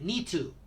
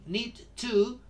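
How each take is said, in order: First: The D is dropped; only the T is heard. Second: The D is pronounced before the T. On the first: The speaker calls it right. "we don't pronounce the D and we pronounce only the T" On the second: The speaker calls it wrong. "Instead of saying"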